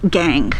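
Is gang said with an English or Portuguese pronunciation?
English. It is said with English pronunciation. "Nós não vamos dizer"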